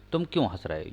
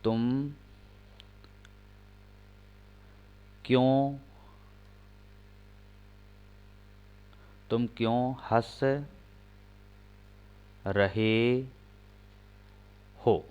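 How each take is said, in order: First: Said in the usual way. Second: Slow, with long gaps between words; slow dictation pace; dictating word by word. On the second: Shown as a demonstration. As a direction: dictate for students to write. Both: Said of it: "एक sentence और लिखें".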